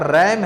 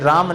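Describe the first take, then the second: First: The vowel is a front 'ae' sound. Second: The vowel is a long open 'aa' sound. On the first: The speaker calls it right. "ये आपका रैम है" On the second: The speaker calls it wrong. "नहीं बेटा ये राम नहीं है"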